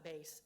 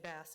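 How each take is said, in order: First: The vowel sounds like the one in face. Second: The vowel sounds like the one in mass. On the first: The speaker calls it wrong. "not bass" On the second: The speaker calls it right. "say bass"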